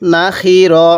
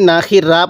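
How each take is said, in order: First: The last syllable ends in a rounded 'o' sound. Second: The last syllable ends in an open 'a' sound. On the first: The speaker calls it right. "র জবর র পড়ব" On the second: The speaker calls it wrong. "অনেকেই না খি রা পড়ি"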